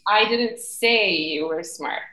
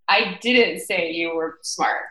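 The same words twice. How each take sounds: First: The stress is on the word say. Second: The stress is on the word didn't.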